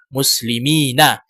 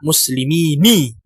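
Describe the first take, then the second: First: The word ends with an 'a' vowel. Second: The word ends with an 'i' vowel. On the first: The speaker calls it right. "dibaca muslimina" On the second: The speaker calls it wrong. "Jangan dibaca muslimini"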